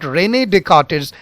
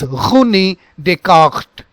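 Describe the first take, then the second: First: The R is a plain, non-throaty sound. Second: The R is a guttural sound from the throat. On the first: The speaker calls it wrong. "it is not René Descartes" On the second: The speaker calls it right. "it is René Descartes"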